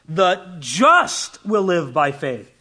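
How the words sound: The stress is on "just".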